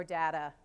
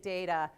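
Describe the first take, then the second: First: "data" with a short flat A, as DAT-uh; DAT-a pronunciation. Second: "data" with a long A, as DAY-ta; DAY-ta pronunciation. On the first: Speaker offers her audience the other way, short-A "data". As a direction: say "data" to rhyme its start with cat. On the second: Speaker offers her audience her own way, long-A "data". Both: Shown as a demonstration.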